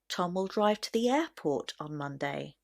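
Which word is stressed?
airport. The word airport carries the main stress. He will go to no other place. "the stress will naturally be placed on the word airport"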